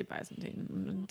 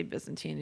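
First: Byzantine starting like "buy"; Y as long I. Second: Byzantine starting like "biz"; Y as short I. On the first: Host comparing regional pronunciations, Byzantine with a "by" start. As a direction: say Byzantine as BY-zən-teen. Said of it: "another part of the world they say". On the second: Host comparing regional pronunciations, Byzantine with a "biz" start. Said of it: "one part of the world they say". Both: Shown as a demonstration.

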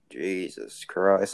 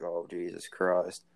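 First: Very slow "Jesus Christ", each word stretched out; mock-stunned, drawn-out exclamation; stunned disbelief. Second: Slow, drawn-out "Oh, Jesus Christ" with a lower pitch; mock-horrified sigh of disbelief; exasperated disbelief. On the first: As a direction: let "Christ" hang in amazement. Reacting to boyfriend's remark. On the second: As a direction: drag "Christ" out like you can't believe it. Reacting to vagina piercing.

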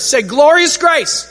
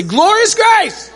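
First: Said in the usual way. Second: High, drawn-out rallying yell; loud. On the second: Shown as a demonstration. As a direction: yell it out to rouse the crowd. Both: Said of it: "like, loud".

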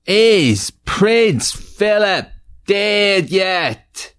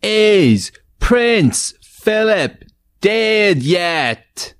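First: High, slow, shouted title. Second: High, slow, drawn-out title call; game show title call. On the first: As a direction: belt out the show's title. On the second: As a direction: belt out the show's name like a host. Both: Acted.

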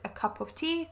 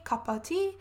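First: Said in the usual way. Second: "cuppa tea", with "cup of" blended into "cuppa"; run-together pronunciation. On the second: Shown as a demonstration. Teacher explaining what a cuppa is, blended pronunciation of "cuppa tea". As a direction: say "cuppa tea" as two joined-up words, no separate "of". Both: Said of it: "if you would like a cuppa".

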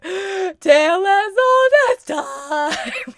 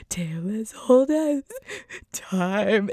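First: Much higher and louder, slow, sung while crying; sung, belting through tears. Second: Put-on sung, with a catch of crying on old; singing along while starting to tear up; tearful singing. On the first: Retold or imitated. Singing the reprise in the theater in tears, slow tearful belting. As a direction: sing out fully with tears running. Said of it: "tears streaking down my face". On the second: Singing along in the theater as tears start, choked song. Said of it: "I just start crying".

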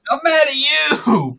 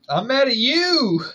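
First: Very high, drawn-out mock yell; out-shout the other in pretend rage; mock-furious shout. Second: High, loud playful outburst; mock anger. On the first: Co-host topping the host's accusation, hammed-up shouting. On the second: Co-host throwing the accusation back, mock angry. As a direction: shout it back in pretend outrage.

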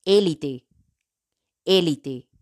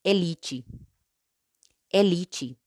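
First: "élite" in Spanish, stressed on É. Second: "elite" in Portuguese, stressed on LI. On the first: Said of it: "En español". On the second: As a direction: say "elite" as e-LEE-chee. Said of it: "En portugués". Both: Shown as a demonstration.

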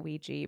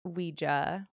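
First: Ouija said as WEE-jee; wee-jee pronunciation. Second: Ouija said as WEE-juh; wee-juh pronunciation. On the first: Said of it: "I also pronounce it". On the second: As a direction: say Ouija with an "uh" ending. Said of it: "but I've heard". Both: Shown as a demonstration.

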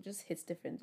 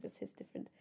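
First: Said in the usual way. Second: Soft breathy whisper of the same words; whispered echo. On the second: Shown as a demonstration. Podcaster repeating her phrase to listeners, in a whisper. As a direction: drop to a hushed whisper.

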